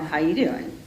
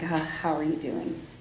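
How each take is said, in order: First: It sounds flirtatious, like Joey from Friends. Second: It sounds empathetic and concerned.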